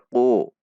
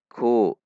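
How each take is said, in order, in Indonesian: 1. Bunyi k dalam dan berat. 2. Bunyi k ringan, lidah tetap rendah. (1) "Itu huruf qaf" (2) "dengan istifal"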